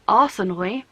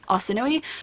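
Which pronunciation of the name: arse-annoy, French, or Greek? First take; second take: arse-annoy; Greek. First: The name sounds like the words arse annoy. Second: The name is said in the original Greek way. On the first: This is how the audiobook narrator says it. "sounds like arse annoy" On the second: This is the original form of the name. "the original like Mediterranean Greek Arsinoe"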